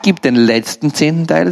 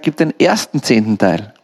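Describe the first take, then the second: First: Contrastive stress on "letzten", the rejected option. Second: Contrastive stress on "ersten", voice falling to close. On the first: Preacher saying what God does not ask, stressing "letzten". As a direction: lean on "letzten" as the one not meant. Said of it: "er sagt nicht". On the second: Preacher saying what God does ask, stressing "ersten". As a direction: land firmly on "ersten" as the correct one. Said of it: "sondern er sagt". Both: Shown as a demonstration.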